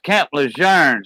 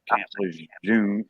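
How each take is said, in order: First: The name is said with a French pronunciation. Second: The name is said with an English pronunciation. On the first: "That's how you say it. It's French" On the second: "I say Camp Lejeune"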